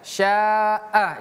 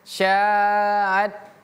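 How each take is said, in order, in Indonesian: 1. Kata ini berakhir dengan vokal terbuka yang panjang. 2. Kata ini berakhir dengan bunyi t. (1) "A-nya harus jelas ya pemirsa" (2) "Jangan syaat"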